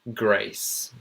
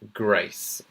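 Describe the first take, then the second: First: The vowel is the received pronunciation sound. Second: The same.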